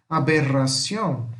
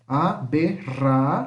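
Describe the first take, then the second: First: Whole word "aberración" with trilled rr; aberración unbroken, Spanish -ción; Spanish double R. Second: A - be - rra - ción, pause after each; spaced-out syllables with trilled rra; syllable separation. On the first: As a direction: roll the rr in aberración. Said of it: "Mesma coisa acontece aqui". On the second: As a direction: split aberración into syllables. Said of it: "separação de sílaba". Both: Shown as a demonstration.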